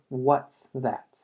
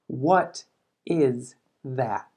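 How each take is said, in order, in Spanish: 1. 'What' e 'is' se unen en 'what's'. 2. 'What' e 'is' se dicen como dos palabras completas. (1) "Simplemente forma de contracción" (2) "What más la palabra is"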